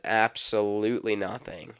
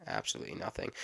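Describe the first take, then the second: First: Said in the usual way. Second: Low, soft unvoiced whisper. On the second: Shown as a demonstration. Vlogger muttering to himself about his empty notebook, whispered. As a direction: breathe it out as a deadpan aside.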